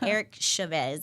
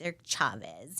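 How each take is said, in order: First: The surname is said with English sounds. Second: The surname is said with Spanish sounds. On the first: The speaker calls it wrong. "it's not Eric Chavez" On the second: The speaker calls it right. "pronounce the Latin players' last names correctly"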